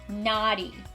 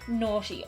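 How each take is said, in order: First: It is said in an American accent. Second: It is said in an Irish accent.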